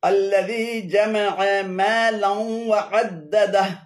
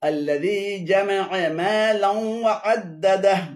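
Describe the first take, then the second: The two takes are said the same way.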